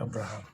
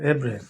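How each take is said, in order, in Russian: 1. Произносится как 'Abrakham', начинается с 'ah'. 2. Произносится как 'Ebrem', начинается с 'eh'. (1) "не по-русски читается Абрахам" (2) "Это Эбрем"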